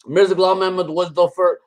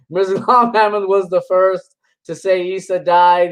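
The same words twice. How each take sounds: First: Imitating Damon's accent, lightly put on; mock accent. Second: Said in the usual way. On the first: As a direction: slip into his accent for the name. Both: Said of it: "he's got that accent".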